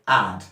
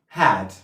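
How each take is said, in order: First: The word starts without an H sound. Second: The word starts with an H sound. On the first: "a cockney person is going to say add" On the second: "Had is the right word"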